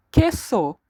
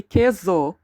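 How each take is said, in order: First: Queso said with a sharp S, ke-so, never a Z; correct Spanish queso. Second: Queso said with a buzzing Z, ke-zo; wrong queso with Z. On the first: Teacher modelling for students, Queso with a clean S. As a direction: say Queso with a crisp S sound. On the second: Teacher showing students the mistake, queso with a Z sound. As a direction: pronounce queso the wrong way, voicing the S. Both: Shown as a demonstration. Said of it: "We never say queso".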